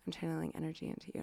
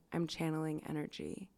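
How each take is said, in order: First: Rushed hushed mystic. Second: Hushed mystic. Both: Retold or imitated. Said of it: "A S M R".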